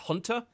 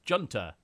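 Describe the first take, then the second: First: The word begins with an H sound. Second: The word begins with a hard J sound. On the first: The speaker calls it right. "Isn't it Hunter?" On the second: The speaker calls it wrong. "if you read it off, you'd probably just say"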